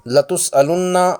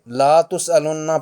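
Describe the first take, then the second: First: The first vowel is kept short. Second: The first vowel is stretched long. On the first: The speaker calls it right. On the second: The speaker calls it wrong.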